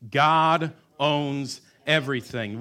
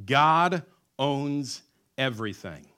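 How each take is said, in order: First: Slow, louder chant with the crowd; louder together. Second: Slow, weighty words; stressed slogan. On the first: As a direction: proclaim it aloud. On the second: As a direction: lay down each word. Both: Shown as a demonstration. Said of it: "Would you say it with me?".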